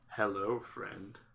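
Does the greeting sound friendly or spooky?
spooky. It is said in a spooky, unsettling way.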